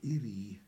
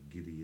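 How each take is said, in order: First: The word begins with a vowel sound. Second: The word begins with a g sound. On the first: The speaker calls it right. "There should be no G in that" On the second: The speaker calls it wrong. "You don't say Giri in Manx"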